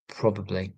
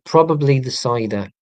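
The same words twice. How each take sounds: First: Lower, softer repeat; quiet aside. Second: Loud joking answer; louder punchline. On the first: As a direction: drop it to a mutter. Quiet echo of own joke. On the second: Joking about drinking cider. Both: Real, not acted.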